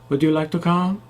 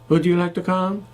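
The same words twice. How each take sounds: No difference in how they are said.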